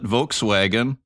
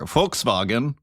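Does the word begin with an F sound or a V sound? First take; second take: V sound; F sound. First: It begins with a V sound, English style. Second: It begins with an F sound, German style. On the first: "as English-speaking people call it" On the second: "as the Germans call it"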